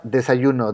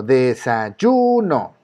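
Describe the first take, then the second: First: Said in the usual way. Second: De-sa-YUUU-no, very slow, YU held long; stress on YU. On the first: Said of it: "La palabra desayuno". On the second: Shown as a demonstration. Teacher shows the strongest syllable of desayuno, slow stress on YU. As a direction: stretch out "desayuno", swelling on the YU. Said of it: "La sílaba que suena más fuerte es yu".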